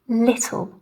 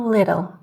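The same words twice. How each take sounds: First: The T is a clean, crisp T. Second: The T sounds soft, like a D. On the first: "this also happens if there is a consonant letter after the T" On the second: "an American would pronounce these more as city or little"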